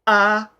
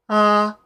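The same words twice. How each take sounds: First: The vowel starts with a sharp glottal catch. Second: The vowel starts smoothly with air flowing first. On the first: "If you close the folds first and then you push the air into the vowel" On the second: "if your folds are open and you do like an A vowel and the air passes through at the same time"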